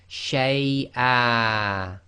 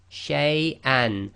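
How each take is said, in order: First: The word ends with a lengthened vowel, no n. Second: The word ends with a short vowel and n.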